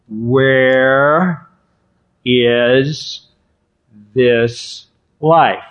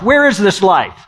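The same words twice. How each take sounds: First: The question is spoken at a slow pace. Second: The question is spoken at a fast pace. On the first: "Let me do it slower" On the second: "Is that too fast for you?"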